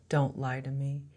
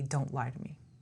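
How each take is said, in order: First: It is said flatly, without emotion. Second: It is said with strong feeling.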